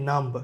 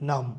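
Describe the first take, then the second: First: A b sound is pronounced at the end. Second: No b sound is pronounced at the end. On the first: The speaker calls it wrong. "So আমরা বলি নাম্ব" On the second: The speaker calls it right. "এখানে বি এর উচ্চারণটা হবে না"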